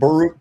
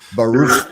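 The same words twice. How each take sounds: First: The final sound is a plain hard k. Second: The final sound is a raspy throat sound. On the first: The speaker calls it wrong. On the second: The speaker calls it right.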